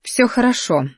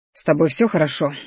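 First: Higher, detached reply; understated coldness in a raised pitch; cold, emotionless. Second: Mildly anxious check on her; understated, worried voice; worried question. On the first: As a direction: answer coolly, as if to a stranger. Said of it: "Так холодно и безэмоционально". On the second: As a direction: ask with a touch of concern. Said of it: "взволнованно спросил я". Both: A narrator's reading.

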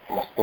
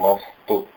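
First: Said in the usual way. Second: मस्तु with म weighted; stress on म. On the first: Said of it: "मस्तु नहीं बोलते हैं". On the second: Shown as a demonstration. Teacher correcting मस्तु. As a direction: lean on the म of मस्तु. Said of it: "म के आगे स और त है".

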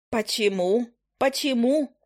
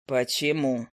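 First: Indignant. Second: Lower, unhurried familiar's voice; a grumpy bird drawling down low; low owl familiar. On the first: Witch repeats indignantly. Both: Acted.

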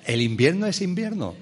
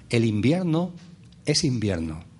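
First: Higher-pitched amused repeat; amused restatement. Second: Solemn pronouncement, dropping low at the end. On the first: Speaker resuming after laughing at his solemnity, amused. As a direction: say it again lightly, solemnity dropped. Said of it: "me río de mí mismo". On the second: Speaker teaching his audience about the seasons, solemn. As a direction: state it with grave solemnity. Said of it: "lo solemne que me pongo". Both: Real, not acted.

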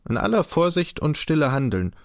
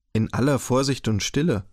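First: Said in the usual way. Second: „In aller Vorsicht und Stille“ repeated with uneasy suspicion; anxious suspicious echo. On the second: A narrator's reading. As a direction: echo the phrase back as a wary question. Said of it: "fragte Daumer ängstlich und argwöhnisch".

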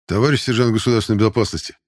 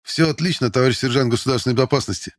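First: Louder, only lightly voiced big recruit; booming address. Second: Higher, eager military report; joyful bark. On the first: Hesitant strongman addressing his instructor, mildly booming. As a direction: address the superior in a mild boom. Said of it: "пробасил Владимир". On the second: Recruit reporting all is well to the sergeant, joyful bark. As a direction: bark it out gladly to a superior. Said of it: "Радостно рявкнул я". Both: A narrator's reading.

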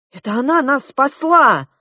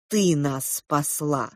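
First: «она» выделено высоко и громче, с падением; высоко, нажим на «она»; ударение на она. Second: «ты» выделено, тихо и медленно, с падением; тихо, медленно, нажим на «ты»; ударение на ты. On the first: Acted. Мама поправляет, чья заслуга. (громко, ударение на «она») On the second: A narrator's reading. То же предложение, другой голос. (тихо с ударением на «ты»)

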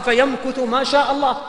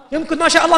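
First: Said in the usual way. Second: يمكث ما شاء الله said higher and louder, stress on الله; emphatic repeat. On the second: Shown as a demonstration. Preacher repeating the hadith phrase for emphasis, louder and higher. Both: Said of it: "متن الحديث كذا يا جماعة".

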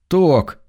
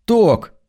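First: Gentle call. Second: Coaxing high call; gentle call, higher. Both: Acted. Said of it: "ласково позвал он".

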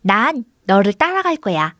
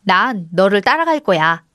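First: Lightly voiced goat echo; a hint of a copycat creature; mimicking goat. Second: Slow, deliberate line; measured, clearly spaced delivery; deliberate prompting. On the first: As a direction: parrot the words as a talking goat. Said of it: "염소가 말을 따라 흉내냈습니다". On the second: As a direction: say it slowly for a mimic to copy. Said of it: "염소를 보며 말했습니다". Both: A narrator's reading.

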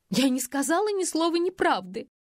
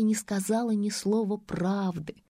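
First: High sobbing denial, «сказала» pushed up high. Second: Slow, with «не» stressed and falling; dry correction. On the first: Faina sobs out her denial to Vilka, high and tearful. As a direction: voice breaking on «Я не сказала ни слова неправды». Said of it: "всхлипнула Фая". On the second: Vilka mockingly corrects Faina's words, slow and stressed on «не». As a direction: lean on «Не» and let «правды» drop flat. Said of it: "Хотела произнести". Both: A narrator's reading.

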